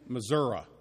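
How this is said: The word ends with an 'uh' sound.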